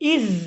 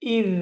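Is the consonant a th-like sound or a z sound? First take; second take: z sound; th sound. First: The consonant is a plain buzzing z sound. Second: The consonant is a soft th-like sound. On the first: The speaker calls it wrong. "ইজ বলি নাই" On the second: The speaker calls it right. "আমি বলছি ইজ, এভাবে উচ্চারণ করবেন"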